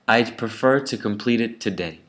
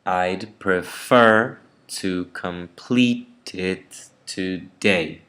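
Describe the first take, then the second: First: Said in the usual way. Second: Slow, with FER, PLEET and DAY stretched in "prefer", "complete", "today"; exaggerated sentence stress. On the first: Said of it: "the sentence would be said". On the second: Shown as a demonstration. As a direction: punch the second syllables of "prefer", "complete", "today", slowly. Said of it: "some parts of the sentence are very unstressed".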